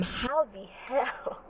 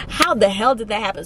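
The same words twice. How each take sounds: First: Very soft, slow, drawn-out reenacted shock; stunned disbelief. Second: Said in the usual way. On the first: Student reliving missing the exam, stunned disbelief. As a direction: let it out slowly, barely voiced.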